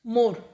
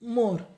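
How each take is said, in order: First: The o vowel is close, lips nearly together. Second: The same.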